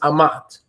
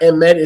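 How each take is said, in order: First: The first vowel sounds like ah. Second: The first vowel sounds like eh. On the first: The speaker calls it right. "the Aleph is pronounced Ah, not E" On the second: The speaker calls it wrong. "It's not Emet"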